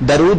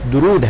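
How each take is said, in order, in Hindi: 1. पहले अक्षर में 'a' स्वर है। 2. पहले अक्षर में 'u' स्वर है। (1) "दरूद नहीं है" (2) "लफ्ज दुरूद है"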